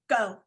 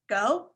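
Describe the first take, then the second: First: The pitch falls at the end, like a statement. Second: The pitch rises at the end, like a question. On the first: It is a definite command to act now. The speaker calls it right. "say it as a statement" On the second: It sounds uncertain whether to act. The speaker calls it wrong. "not as a question"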